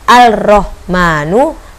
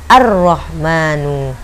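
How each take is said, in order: First: The L of the article is clearly pronounced. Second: The L merges into a doubled R sound. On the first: The speaker calls it wrong. "Bukan al-rohmanu" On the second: The speaker calls it right. "tetapi menjadi ar-rohmanu"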